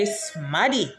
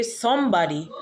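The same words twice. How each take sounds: First: "smaddy" squeezed into two syllables; Patois pronunciation. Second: "somebody" in three full syllables; English pronunciation. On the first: Showing viewers the Patois word, "smaddy" with short a. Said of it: "we say smaddy". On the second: Showing what Patois speakers avoid, "somebody" in full. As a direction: say "somebody" with the b sounded. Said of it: "We don't say somebody". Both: Shown as a demonstration.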